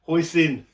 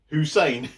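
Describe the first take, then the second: First: The word is said with an 'oy' sound, hoisin. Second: The word is said like the name Hussein.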